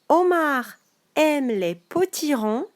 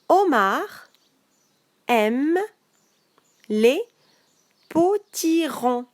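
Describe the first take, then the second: First: The sentence is read at a fast pace. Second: The sentence is read at a slow pace. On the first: "une lecture rapide" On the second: "une lecture plus lente"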